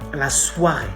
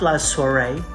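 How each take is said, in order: First: The 'oi' is pronounced like 'wa'. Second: The 'oi' is not pronounced like 'wa'. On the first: The speaker calls it right. "it makes the sound wa" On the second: The speaker calls it wrong. "And not la soirée"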